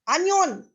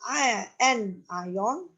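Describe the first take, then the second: First: The word is said sounding like 'onion'. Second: The word is said as 'an ion'. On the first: The speaker calls it wrong. "sometimes even teachers will read it wrongly" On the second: The speaker calls it right. "It's an ion"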